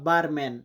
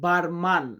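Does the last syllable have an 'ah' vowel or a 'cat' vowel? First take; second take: cat; ah. First: The last syllable has a flat vowel like cat. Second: The last syllable has an open ah vowel. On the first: This is the English form. "ইংরেজিতে এটাকে বলা হয় বারম্যান" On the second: This is the Portuguese form. "লাস্টের দিকে ওই ম্যানটা মান উচ্চারণ করে পর্তুগালে"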